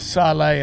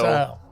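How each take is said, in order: First: The name is said with a fancy, drawn-out ending. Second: The name is said as one plain syllable.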